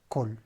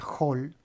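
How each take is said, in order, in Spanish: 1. Empieza con un sonido de k dura. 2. Empieza con un sonido de h áspera. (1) "si yo tuviera la palabra sola, sería col" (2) "cuando yo la junto a la preposición se, se pronuncia hol"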